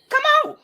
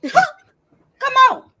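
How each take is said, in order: First: Said in the usual way. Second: Laughing. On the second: Real, not acted. Laughing taunt at chat.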